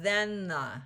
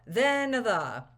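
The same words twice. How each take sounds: First: The two words run together without a schwa. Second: A short schwa separates the two words. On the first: The second word is poorly articulated. The speaker calls it wrong. "otherwise, you would have then the, but it doesn't give great articulation" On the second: The second word is clearly articulated. The speaker calls it right. "he does put in that schwa sound, that uh"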